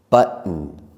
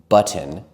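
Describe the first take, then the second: First: The t becomes a brief catch in the throat. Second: The t is clearly released before the ending. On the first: The speaker calls it right. "we close our throats for just a moment" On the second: The speaker calls it wrong. "it doesn't sound as natural"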